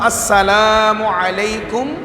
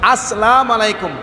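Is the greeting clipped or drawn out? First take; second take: drawn out; clipped. First: The greeting is said slowly with lengthened sounds. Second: The greeting is said quickly with clipped sounds. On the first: The speaker calls it right. "সিনের উপর তসদি জবর বলতে হবে, লামকে লামালিপ করে টান দিতে হবে।" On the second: The speaker calls it wrong. "তাড়াহুড়ো করতে গিয়ে অনেক ভুল বলে ফেলি ... এটা মারাত্মক ভুল।"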